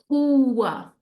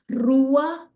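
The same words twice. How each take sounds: First: The word begins with an H-like sound. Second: The word begins with an R sound. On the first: "or a h" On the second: "either gives us a r"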